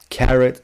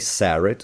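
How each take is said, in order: First: The word begins with a K sound. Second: The word begins with an S sound. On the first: The speaker calls it right. "in a second know that it's um, one sound or the other" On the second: The speaker calls it wrong. "you wouldn't say"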